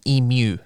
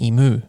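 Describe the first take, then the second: First: The second syllable sounds like 'myoo'. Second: The second syllable sounds like 'moo'. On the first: This is how it is said here. "The the U is pronounced the same as in ambulance" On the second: This is how it was said growing up. "Moo is in the noise a cow makes"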